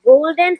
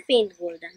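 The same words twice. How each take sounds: First: Golden lifted back up, fuller; golden said loud. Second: Faint, golden dropped low and much softer. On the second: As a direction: let faint, golden fade away. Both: Shown as a demonstration. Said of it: "and so on".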